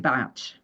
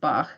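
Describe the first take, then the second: First: The name ends with a 'tch' sound. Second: The name ends without a 'tch' sound. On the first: This is how that Welsh man said his own name. "pronounced his name Batch" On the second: This is how a musician says the composer's name. "for me, Bach is Bach"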